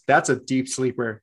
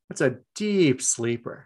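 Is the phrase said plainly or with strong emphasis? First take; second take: plainly; strong emphasis. First: The phrase is said plainly, without extra emphasis. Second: The phrase is said with strong, heavy emphasis.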